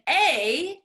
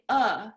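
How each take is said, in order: First: It is said with a full 'ay' vowel. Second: It is reduced to a short 'uh'. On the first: The speaker calls it wrong. "Instead of saying a" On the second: The speaker calls it right. "Instead you say uh"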